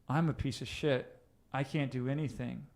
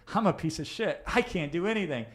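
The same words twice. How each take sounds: First: The tone is gloomy and harsh. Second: The tone is light and upbeat. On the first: The feeling matches the negative words. "You're going to feel a certain way" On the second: The feeling contradicts the negative words. "the emotional tonality of that will feel, will contradict the language"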